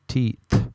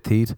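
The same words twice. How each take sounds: First: The final th is carefully pronounced as th. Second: The final th is said like a plain t. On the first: "That's how I'm going to pronounce that from now on, awkwardly like that" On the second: "in Ireland you say teeth"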